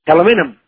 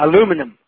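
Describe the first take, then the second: First: The word is said with five syllables, ending -ium. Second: The word is said with four syllables, ending -um. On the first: The speaker calls it right. "you guys can't help it if you can't pronounce the word aluminium" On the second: The speaker calls it wrong. "the Americans seem to cut out the EM"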